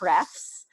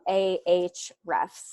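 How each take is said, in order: First: The name starts with a breathy h sound. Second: The name starts with an open 'ah' vowel. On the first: The speaker calls it wrong. "normally I naturally say hrefs" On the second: The speaker calls it right. "I said it right today"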